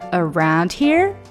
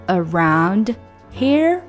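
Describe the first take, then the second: First: The two words are linked together. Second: The two words are said separately. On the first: "变成了around here" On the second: "本来应该是around here"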